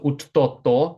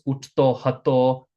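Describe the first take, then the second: First: The h sound is dropped and the words merge. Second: The h sound at the start of hato is pronounced. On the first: "we frequently don't pronounce that ha. So uttoto is what it sounds like" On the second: "We're always going to have these hatos"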